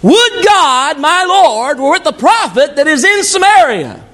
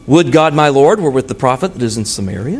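First: The sentence is said with strong exclamatory force. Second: The sentence is said flatly, without exclamatory force. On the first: The speaker calls it right. "Did I say it right? Give that boy a hand" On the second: The speaker calls it wrong. "I didn't say it right either"

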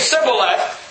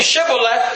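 First: The word begins with an 's' sound. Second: The word begins with a 'sh' sound. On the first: The speaker is from Ephraim. "They're saying Sibboleth" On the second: The speaker is not from Ephraim. "He's saying Shibboleth"

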